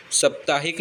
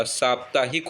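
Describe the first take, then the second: First: साप्ताहिक begun with short "sap"; wrong short vowel. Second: साप्ताहिक begun with long "saap"; correct long vowel. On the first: Teacher showing the mistake, साप्ताहिक with short first vowel. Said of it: "साप्ताहिक नहीं होता". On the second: Teacher giving the correction, साप्ताहिक with long "saap". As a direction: lengthen the first vowel of साप्ताहिक. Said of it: "साप्ताहिक होता है". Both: Shown as a demonstration.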